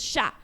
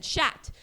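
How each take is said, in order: First: "chat" with a silent final t, like sha; French "chat", no t sounded; correct French chat. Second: "chat" with the final t sounded, like shat; "chat" wrongly closed on a hard t; mispronounced chat. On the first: Shown as a demonstration. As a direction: say "chat" the French way, open ending. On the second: Retold or imitated. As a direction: botch French "chat" by voicing its last t. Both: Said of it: "mispronounced it to him".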